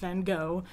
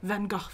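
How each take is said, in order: First: The name is said the American way. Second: The name is said the British way. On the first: This is not how it is said in England. The speaker calls it wrong. "not Van Gogh" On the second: This is how it is said in England. The speaker calls it right. "because we're in England, so it's Van Gogh"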